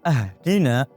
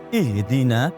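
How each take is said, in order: First: The word begins with an 'a' vowel. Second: The word begins with an 'i' vowel. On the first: Give us a gift. The speaker calls it wrong. "memfathahkan hamzahnya" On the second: Give us guidance. The speaker calls it right. "ihdina dengan mengkasroh hamzahnya"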